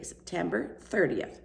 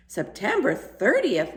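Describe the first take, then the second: First: Said in the usual way. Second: "September thirtieth" slow, higher and louder, stressed on "thirtieth"; husband realises the date, excited. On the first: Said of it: "I am going to bed". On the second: A narrator's reading. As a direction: seize on the date with sudden excitement. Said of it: "said in an excited tone".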